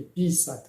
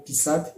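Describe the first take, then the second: First: "pisat" with long "pi", weak "sat"; stress on first syllable. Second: First "pisat" with stressed "sat"; weight on the end of "pisat"; stress on second syllable. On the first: Teacher lists both words, this "pisat" stressed first. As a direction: stretch the start of "pisat". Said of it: "accent tonique sur la première syllabe". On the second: Teacher lists both words, this "pisat" stressed last. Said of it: "déplacement de cet accent tonique sur la première syllabe". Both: Shown as a demonstration.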